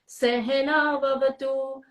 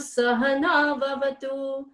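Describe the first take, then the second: First: The first syllable has an 'e' vowel. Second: The first syllable has an 'a' vowel. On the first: It means tolerating. The speaker calls it wrong. "It is not Sehena because Sehena means tolerating" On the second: It means together. The speaker calls it right. "Saha means together"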